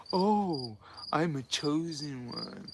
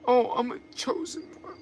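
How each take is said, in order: First: Mock chosen one. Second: Higher, softer, smug mock voice of a proud chosen one; breathy-free sing-song mockery, pitched up and hushed. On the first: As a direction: parody someone lost to the dark side, quietly proud. Mocking the fallen chosen one again. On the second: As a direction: parody a seeker gushing over being chosen. Mocking someone who feels chosen.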